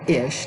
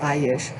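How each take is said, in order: First: The word is one short syllable. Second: The word has an extra vowel before it. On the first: The speaker calls it right. "It should be ish" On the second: The speaker calls it wrong. "not I-ish"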